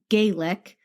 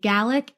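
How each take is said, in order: First: The name sounds like the word Gaelic. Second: The name sounds like the word Gallic. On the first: The speaker calls it right. "and it's Gaelic" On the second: The speaker calls it wrong. "I was mispronouncing Kevin's last name. I was saying Gallic"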